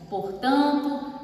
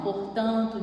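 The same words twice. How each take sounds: First: Quoting a stock opener. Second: Said in the usual way. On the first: Shown as a demonstration. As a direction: stretch "portanto" like a formal essay opener. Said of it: "tem gente que começa assim". ("portanto" dito devagar, como abertura de redação) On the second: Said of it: "comece a conclusão com um operador".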